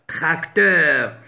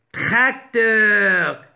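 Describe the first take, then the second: First: Said in the usual way. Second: "Tracteur" in two held parts, trac, teur; split into syllables. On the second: Shown as a demonstration. Teacher showing the two syllables to learners, split into syllables. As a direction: break "Tracteur" after trac. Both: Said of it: "se compose de deux syllabes".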